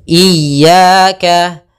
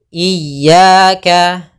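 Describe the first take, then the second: The two takes are said the same way.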